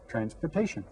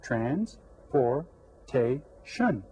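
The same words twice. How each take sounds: First: Said in the usual way. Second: Very slow, a clear pause between syllables; separated syllables. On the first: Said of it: "Four syllables". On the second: Shown as a demonstration. Teacher shows the four syllables, very slow and separated. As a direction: break "Transportation" into four separate beats. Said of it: "Did you get four syllables?".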